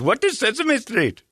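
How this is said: It is said in a thick Indian accent.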